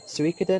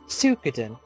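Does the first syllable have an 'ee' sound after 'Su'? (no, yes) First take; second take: yes; no. First: The first syllable carries an added 'ee' sound. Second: The first syllable is a plain 'Su' sound. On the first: The speaker prefers it this way. The speaker calls it right. "I would say Suikoden" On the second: Someone else said it this way. The speaker calls it wrong. "always called it Suikoden, but there's an I there... how it's a Su"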